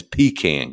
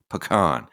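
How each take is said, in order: First: "pecan" as PEE-kan, stressed first syllable, second like a tin can; mock the PEE-kan version; wrong pecan. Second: "Pecan" as puh-KAHN, weak first syllable, stressed KAHN; pecan said right. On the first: Scoffing at the way other folks say it, PEE-kan. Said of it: "don't give me none of this pecan garbage". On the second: Showing viewers the right way to say it, puh-KAHN. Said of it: "That's how you say it". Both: Shown as a demonstration.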